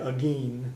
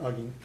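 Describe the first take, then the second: First: The stress is on the last syllable. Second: The stress is on the first syllable. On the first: This is how it is said in the South. "in the South they usually stress the last syllable more" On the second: This is how it is said in the other regions. "in the other two parts it would be more like"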